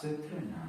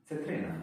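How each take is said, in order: First: "Cytryna" said with ts and a short y, /tsɛtrɪna/; careful repeat. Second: "Cytryna" said louder, /tsɛtrɛna/, falling tune; firm repeat. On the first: Learner echoes the translator's word for lemon. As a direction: copy "Cytryna" higher, as the app did. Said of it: "repeats app". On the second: Learner drills the Polish word for lemon, louder. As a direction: punch out "Cytryna" with a falling end. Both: Shown as a demonstration.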